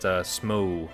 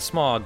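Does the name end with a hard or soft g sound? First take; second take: soft; hard. First: The name ends with a soft g sound. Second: The name ends with a hard g sound. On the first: The speaker calls it right. "It's a soft G" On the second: The speaker calls it wrong. "not Smog"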